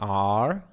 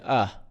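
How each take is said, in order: First: The word is said in its full strong form. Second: The word is reduced to a weak vowel sound. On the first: "normally you say are" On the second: "you can just say uh"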